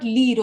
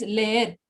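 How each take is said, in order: First: Leer said like English leer, one long vowel lee; the mispronounced leer, lee-d; wrong English-style leer. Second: Leer said le-er with a tapped r; the corrected leer, two vowels; right Spanish leer. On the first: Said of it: "It is not leer". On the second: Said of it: "It is leer". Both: Shown as a demonstration.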